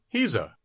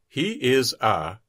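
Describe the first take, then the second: First: He and is are joined into one syllable. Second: He and is are said as separate words.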